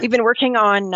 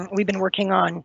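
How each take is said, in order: First: Louder, forcing the voice out; raspy but pushed harder; pushing through hoarseness. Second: Hoarse voice, clearing throat; raspy, voice giving out; losing voice. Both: Real, not acted. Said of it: "sorry, I'm losing my voice".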